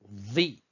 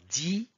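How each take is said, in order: First: The consonant is the emphatic Arabic dad sound. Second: The consonant is a plain d sound. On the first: The speaker calls it right. "c'est plutôt vi" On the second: The speaker calls it wrong. "ce n'est pas di"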